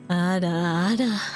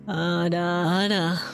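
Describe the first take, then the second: First: It is said in a very deep, low voice. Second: The same.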